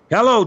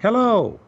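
First: The hello is loud, forceful and commanding. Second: The hello is soft, warm and sweet. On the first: The speaker takes control of the conversation. "I'm going to hit some thunder" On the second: The speaker is courting the other person. "If I'm going to be sweet and I'm going to court the money"

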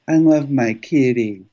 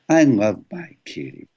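First: Kitty ends on the higher musical fifth. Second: Kitty ends on the voice's home note.

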